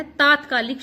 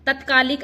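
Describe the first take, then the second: First: Long aa in तात्कालिक; correct form. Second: Short first vowel in तत्कालिक; wrong form. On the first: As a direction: open तात्कालिक on taat-. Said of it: "तात्कालिक शुद्ध शब्द है". (सही उच्चारण, तात्कालिक) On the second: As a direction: open तत्कालिक on tat-. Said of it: "तत्कालिक अशुद्ध है". (गलत उच्चारण, तत्कालिक) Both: Shown as a demonstration.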